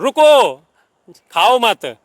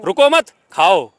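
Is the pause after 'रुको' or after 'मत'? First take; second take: after रुको; after मत. First: The pause comes right after 'रुको'. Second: The pause comes right after 'मत'.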